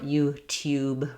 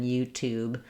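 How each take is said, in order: First: The second syllable has a y sound before oo. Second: The second syllable has a plain oo, no y. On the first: This is the British form. "or YouTube rather than" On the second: This is the American form. "rather than YouTube"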